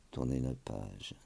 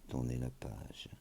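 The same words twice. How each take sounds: The two takes are said the same way.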